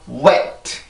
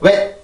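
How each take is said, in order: First: The word is said with strong stress. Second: The word is said weakly, without stress. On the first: The speaker calls it right. "강세가 반드시 들어가야 됩니다. wet 이런 식으로요" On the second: The speaker calls it wrong. "절대 wet, wet 이렇게 발음을 하면 안 돼요"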